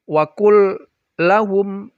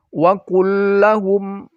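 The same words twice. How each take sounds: First: The two l sounds are split apart. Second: The two l sounds join as one doubled l. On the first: The speaker calls it wrong. "ah itu keliru" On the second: The speaker calls it right. "Menyatu dia karena dia dihukum idgham"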